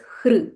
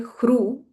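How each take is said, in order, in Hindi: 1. r स्वयं ही स्वर है, कुछ भी जोड़ा नहीं जाता। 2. r के बाद 'oo' स्वर आता है। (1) "it is hr" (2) "we don't say hru"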